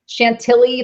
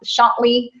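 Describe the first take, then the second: First: The ending rhymes with Billy. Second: The ending does not rhyme with Billy. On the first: The speaker calls it right. "like Billy" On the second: The speaker calls it wrong. "I said it wrong"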